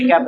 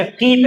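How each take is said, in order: First: कैप with an open e vowel; rejected reading of keep. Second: कीप with a long ee vowel; corrected reading of keep. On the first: Teacher rejecting the misreading, कैप with open e. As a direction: say कैप with e, as the mistake. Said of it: "कैप नहीं". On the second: Teacher correcting a misread word, कीप with long ee. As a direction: say कीप with ee, not e. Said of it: "अच्छा कीप है". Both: Shown as a demonstration.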